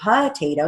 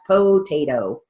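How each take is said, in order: First: The first vowel is a short, reduced O. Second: The first vowel is a full long O. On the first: "you're going to write it with a short O" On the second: "you can write it with a long O"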